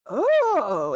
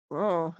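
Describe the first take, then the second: First: High, drawn-out crowd ooh; crowd's rising reaction. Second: Low-key, dropped little oh; shrugging oh. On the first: Game master voices orcs watching the big gulp, impressed. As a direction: let the exclamation swell upward. They're kinda looking at you. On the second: Orcs see the dwarf fall flat, shrugging. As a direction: toss it off with a shrug. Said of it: "and they kinda shrug". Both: Acted.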